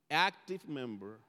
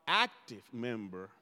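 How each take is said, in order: First: "Active" pressed firmly, word by word; stress on active. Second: Said in the usual way. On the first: Shown as a demonstration. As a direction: lean into "Active member". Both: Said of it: "I'm making an emphasis on that word".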